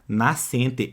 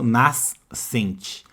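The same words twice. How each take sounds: First: No separate S sound is heard before the C. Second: A separate S sound is heard before the C. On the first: The speaker calls it right. "Eu não escuto o som daquele S, repare, eu falo nascente" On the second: The speaker calls it wrong. "eu não falo nascente"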